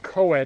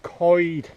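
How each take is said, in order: First: It does not sound like 'coyd'. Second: It sounds like 'coyd'. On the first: The speaker calls it wrong. "it's not pronounced coed" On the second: The speaker calls it right. "As if you're saying C O Y D"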